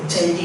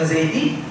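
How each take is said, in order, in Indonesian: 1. Nama itu dimulai dengan bunyi pertama yang berbeda. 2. Nama itu dimulai dengan bunyi z. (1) "dia panggil apa? Caidi" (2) "Saya nama Zaidi"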